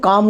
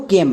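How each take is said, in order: First: "কাম" with an open aa vowel; wrong pronunciation. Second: "কেম" with an e vowel, not aa; correct pronunciation. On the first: Teacher warns pupils off the misreading, mispronounced "কাম". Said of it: "ভুল করেও কাম উচ্চারণ করব না". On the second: Teacher gives pupils the sight word, correctly pronounced "কেম". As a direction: say "কেম", with the vowel of English came. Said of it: "আমরা উচ্চারণ করব কেম". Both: Shown as a demonstration.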